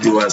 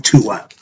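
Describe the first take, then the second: First: The word begins with a D sound. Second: The word begins with a T sound. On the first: The speaker calls it wrong. "hear me pronounce it Duat sometime" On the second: The speaker calls it right. "it should be pronounced with the T sound"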